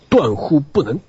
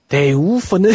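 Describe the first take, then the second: First: It is said in standard Mandarin. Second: It is said in a regional dialect.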